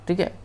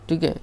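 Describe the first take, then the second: The two takes are said the same way.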